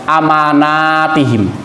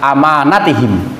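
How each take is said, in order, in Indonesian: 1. Vokal di tengahnya dibaca panjang. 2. Vokal di tengahnya dibaca pendek. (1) "kadang-kadang dijamak dibaca jamak atau plural" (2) "nah dibaca pendek ya"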